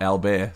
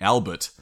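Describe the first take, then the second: First: It is said the French way, ending in bair. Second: It is said the English way, ending in bert. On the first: This is the local French pronunciation. "not Albert" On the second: The soldiers anglicized the name. "So that suggests to me that they were calling it Albert"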